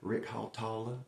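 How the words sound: The name is said in a Southern American accent. "You can say it like you're from Georgia or Mississippi"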